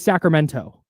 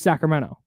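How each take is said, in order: First: The T sound is clearly pronounced. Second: The T sound is dropped. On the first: A careful, proper way of speaking. "she wants to pronounce the T" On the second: The way locals say it. "just Sacramento"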